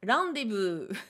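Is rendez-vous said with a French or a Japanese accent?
Japanese. It is said with a Japanese accent and a B. "imaginer un Japonais le prononcer ... le V se transforme en B"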